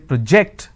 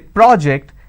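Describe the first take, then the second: First: The stress is on the second syllable. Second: The stress is on the first syllable. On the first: The word is a verb. "When I say project, that becomes a verb" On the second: The word is a noun. "So when I say project, that becomes a noun"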